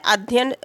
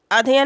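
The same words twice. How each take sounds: First: अध्ययन as adh-yayan; correct form. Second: अध्ययन shortened to a-dhyan; wrong form. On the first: Teacher giving the pure word, अध्ययन with both ya sounds. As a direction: give अध्ययन its full ya-yan ending. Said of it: "अध्ययन शुद्ध शब्द होता है". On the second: Teacher showing the form to reject, अध्ययन clipped to adhyan. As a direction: run अध्ययन together, losing a syllable. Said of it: "अध्ययन नहीं होता है". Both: Shown as a demonstration.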